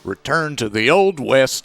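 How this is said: It is read in a put-on cowboy voice.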